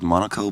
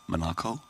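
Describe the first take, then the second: First: The name is said with an English-style pronunciation. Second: The name is said with a German-style pronunciation. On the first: The speaker calls it wrong. "I'm mispronouncing it" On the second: The speaker calls it right. "it's Monaco"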